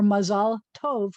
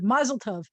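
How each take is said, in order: First: It is said with a Hebrew pronunciation. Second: It is said with a Yiddish pronunciation.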